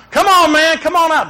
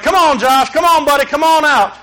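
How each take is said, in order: First: More urgent call. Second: Put-on higher, coaxing call to a hiding child. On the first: Retold or imitated. Father calling his missing son again, more urgent. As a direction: call again with rising worry. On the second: Father calling his hiding son out at the playground, coaxing. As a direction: call him out gently but raised.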